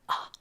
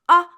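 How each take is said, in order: First: The sound is whispered. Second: The sound is said loudly.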